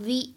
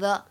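First: The vowel of 'the' sounds like 'thee'. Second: The vowel of 'the' sounds like 'thuh'. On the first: The speaker calls it right. "所以它呢要读成the" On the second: The speaker calls it wrong. "不能读成the"

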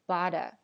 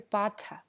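First: The middle t sounds like a soft d. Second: The middle t is a clear t sound. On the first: "它也会变成d 的这个音，而是butter" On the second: "所以也不是butter"

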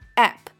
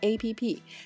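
First: It is said as one short word. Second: It is said as three separate letters. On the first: The speaker calls it right. "它的正确读音是App" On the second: The speaker calls it wrong. "而不是我们生活中常说的APP"

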